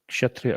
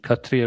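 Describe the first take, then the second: First: The word is said with a sh sound. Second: The word is said without a sh sound.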